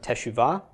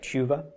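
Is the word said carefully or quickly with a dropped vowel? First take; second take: carefully; quickly. First: All three syllables are said fully, at normal speed. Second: It is said quickly, with the first vowel dropped.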